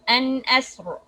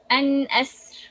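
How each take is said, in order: First: The r is said heavy, with a full mouth. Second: The r is said light, with an empty mouth. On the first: The speaker calls it wrong. "it will be heavy. ... We can say it like this" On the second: The speaker calls it right. "an asr with light"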